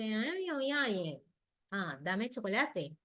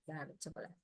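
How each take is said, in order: First: Put-on whiny child voice, dragging "chocolate" out slowly; child asking for chocolate. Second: "Dame chocolate" said much softer and lower, gently; soft correct model. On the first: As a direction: play the small child whining for a treat. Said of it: "él me dice". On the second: Shown as a demonstration. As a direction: quietly model the right way to say it. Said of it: "yo corrijo el patrón".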